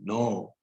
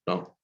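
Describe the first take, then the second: First: It sounds surprised. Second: It sounds angry. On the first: "When we are surprised" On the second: "when we are showing like angry for saying no"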